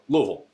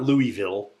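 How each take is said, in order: First: The name is swallowed into a short, clipped form. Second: The name is said fully, every syllable clear. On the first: The speaker calls it right. "You got to swallow it" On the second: The speaker calls it wrong. "It's not Louisville"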